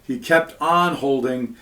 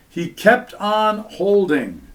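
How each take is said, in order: First: "on" stressed in the phrase "He kept on holding". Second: "kept" stressed, slow, higher. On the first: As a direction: lean on "on" to show it keeps going. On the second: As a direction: lean slowly on "kept". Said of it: "likewise would be, continuous". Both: Shown as a demonstration.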